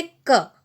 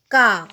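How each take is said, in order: First: क with a brief short a; a quick, short क; short vowel. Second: का with a long open aa; long vowel. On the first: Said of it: "आ की मात्रा लगने के बाद में शब्द का उच्चारण बदल". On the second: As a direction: open क out into a full का. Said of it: "क में अगर आ की मात्रा मिलेगी". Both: Shown as a demonstration.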